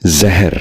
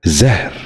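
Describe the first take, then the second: First: زہر with a vowel after the h, "ze-her"; mispronounced زہر. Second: زہر as one syllable, "zehr"; correct زہر. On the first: Teacher showing viewers a common mistake, زہر said as "zeher". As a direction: break زہر into two syllables. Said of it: "یہ غلط تلفظ ہے". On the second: Teacher modelling for viewers, زہر said as "zehr". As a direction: run h straight into r in زہر. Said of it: "درست تلفظ ہے". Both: Shown as a demonstration.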